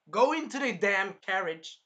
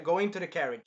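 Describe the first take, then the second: First: Loud, high, slowed imitated command; urgent mock order. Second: Said in the usual way. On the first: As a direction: order it forcefully, word by word. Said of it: "he was pretty much super worried". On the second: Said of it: "He was like".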